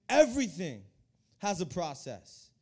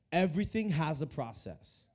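First: Preacher driving the line home with "Everything"; emphatic restatement. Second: Said in the usual way. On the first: Shown as a demonstration. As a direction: hit "Everything", pause, draw out "has a process".

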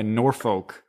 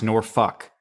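First: Norfolk with a clear "folk" ending; second syllable of Norfolk rhymes with "oak"; spelling pronunciation. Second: Norfolk ending like "fuck"; second syllable of Norfolk rhymes with "luck"; local pronunciation. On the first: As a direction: say Norfolk as "NOR-foke", with a long O. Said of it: "It's not pronounced N". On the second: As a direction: say Norfolk as "NOR-fuck", with a short vowel. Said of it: "It's pronounced". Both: Shown as a demonstration.

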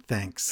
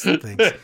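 First: Low, soft throwaway thanks; flat mumbled thanks. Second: Higher, louder cheery thanks; bright louder thanks. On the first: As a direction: mumble it under your breath. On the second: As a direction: throw it out brightly. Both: Shown as a demonstration.

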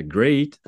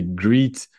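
First: Great, said with the ay diphthong as in gate; the right way, great rhyming with late; great with an ay sound; correct English. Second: Greet, said with a long ee vowel like green; the old mistake, greet with an ee sound; wrong vowel. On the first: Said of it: "j'aurais dû dire great". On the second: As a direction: greet pronounced with a tense ee. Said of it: "je disais greet". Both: Shown as a demonstration.

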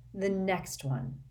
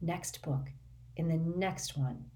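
First: Wearily repeating to himself, slow; slow, drowsy self-reminder; slow, tired mutter. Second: Said in the usual way. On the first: A narrator's reading. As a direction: drag it out slowly, fading. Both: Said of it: "tell himself over and over again".

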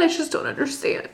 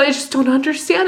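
First: Soft whispered echo of "I just don't understand"; whispered repeat. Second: Said in the usual way. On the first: Retold or imitated. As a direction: whisper it to yourself, defeated. Repeating her confusion to him.

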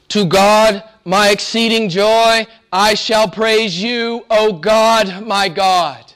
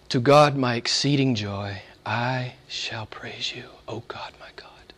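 First: Higher, louder, slow proclamation; proclaimed psalm. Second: Soft, slow, fading whisper; hushed psalm reading. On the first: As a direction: ring the verse out to the room. Psalm repeated aloud after whisper. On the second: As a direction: breathe the verse like a prayer. Psalm whispered, then repeated aloud. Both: Acted.

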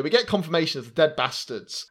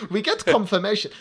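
First: Said in the usual way. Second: Higher-pitched, badly faked German accent; hammy German-accented announcement. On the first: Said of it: "I was about to start to get". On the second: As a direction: slip into a silly mock-German voice. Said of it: "like, my shit German accent".

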